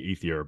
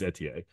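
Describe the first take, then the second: First: The middle consonant is a th sound. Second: The middle consonant is a plain t sound. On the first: This is the common American way of saying it. The speaker calls it wrong. "us Americans always say Ethier" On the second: This is how the name is actually pronounced. The speaker calls it right. "That's actually how you pronounce it"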